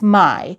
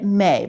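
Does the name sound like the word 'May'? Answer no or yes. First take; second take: no; yes. First: The name does not sound like 'May'. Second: The name sounds like the word 'May'. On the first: The speaker calls it right. "but it's Mai" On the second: The speaker calls it wrong. "I was pronouncing it May"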